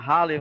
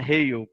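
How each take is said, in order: First: The name ends with an extra vowel sound. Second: The name ends on a consonant sound. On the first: The speaker calls it wrong. "a gente sempre falou Halley" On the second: The speaker calls it right. "a pronúncia correta é Hale"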